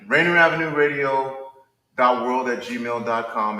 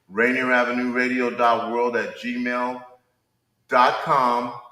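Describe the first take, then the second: First: It is said at a normal pace. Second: It is said a little more slowly.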